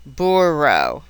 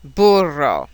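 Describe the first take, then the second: First: "burro" with pursed lips and no trill; English R. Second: "burro" with an emphatic tongue-tip trill; Italian R. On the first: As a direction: say "burro" like English BOO-row. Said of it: "English R". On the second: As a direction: roll the double R in "burro". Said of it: "Italian R". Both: Shown as a demonstration.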